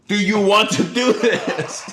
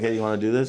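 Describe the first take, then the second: First: It is said louder, with irritation. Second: It is said quietly, in a low voice.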